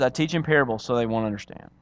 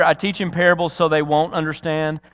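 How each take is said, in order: First: Lower, softer restatement of the same words; deadpan restatement. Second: Said in the usual way. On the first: Shown as a demonstration. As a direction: drop the voice and repeat it matter-of-factly. Deadpan repeat as the supposed explanation.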